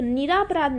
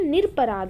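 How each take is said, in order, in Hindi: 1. 'nir' के बाद एक लंबा 'aa' स्वर आता है। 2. 'nir' और 'pa' के बीच कोई स्वर नहीं आता। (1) "निरापराध ना होके" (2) "निरपराध होता है"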